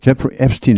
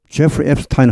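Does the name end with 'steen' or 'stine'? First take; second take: steen; stine. First: The last syllable sounds like 'steen'. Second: The last syllable sounds like 'stine'. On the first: This is how most Americans say it. "미국 사람들은 정작 항상 앱스틴 합니다" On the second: This is the original German pronunciation. "제프리 앱스타인 하지 않고"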